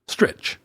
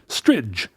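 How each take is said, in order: First: The syllable ends with a 'ch' sound. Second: The syllable ends with a 'j' sound. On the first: The speaker calls it wrong. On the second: The speaker calls it right. "ostrich with like a J"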